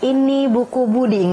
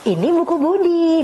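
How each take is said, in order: First: It is read in a flat, plain tone. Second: It is read with lively, varied intonation. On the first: The speaker calls it wrong. "nggak cuman ini buku Budi, nggak begitu" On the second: The speaker calls it right. "itu kan intonasinya berbeda"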